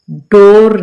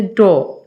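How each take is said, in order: First: डोर with a clear r at the end; डोर, final r sounded, as the mistake; wrong pronunciation. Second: डोर with the final r dropped; डोर ending on a long o, no r; correct pronunciation. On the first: Teacher showing students the mistake, final r sounded. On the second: Teacher giving students the right form, r dropped. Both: Shown as a demonstration. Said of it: "डोर नहीं कहते".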